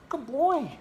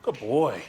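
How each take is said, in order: First: Very high, loud pet-talk voice; high-pitched dog praise. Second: Loud, falling praise in a usual-pitched voice; praising the dog. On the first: Owner praising the dog for eating, very high doting praise. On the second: Owner praising the dog for eating, loud hearty praise. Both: Real, not acted.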